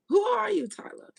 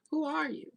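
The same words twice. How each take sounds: First: High, loud demand; emphatic questioning. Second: Said in the usual way. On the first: Real, not acted. Questioning Tyla during a reading, loudly demanding who she is. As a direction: burst out louder and much higher.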